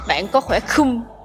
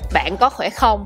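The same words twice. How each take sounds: First: The last word is said as slangy 'khum'. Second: The last word is said in its standard form. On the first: This is how young people ask. "But Gen Z will ask" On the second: This is the ordinary way to ask. "If you want to ask me like, "Are you good?""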